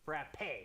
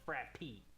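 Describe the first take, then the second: First: The word ends with an 'ay' vowel sound. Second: The word ends with an 'ee' vowel sound. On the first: The speaker calls it right. "And it's frappe" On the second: The speaker calls it wrong. "not frappy"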